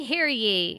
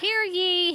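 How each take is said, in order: First: Lower, settled second call; court crier, lower. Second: High, ringing proclamation; court crier. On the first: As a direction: bring the call back down and finish it. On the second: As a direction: announce it to the whole court. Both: Acted. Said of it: "Who talks like that?".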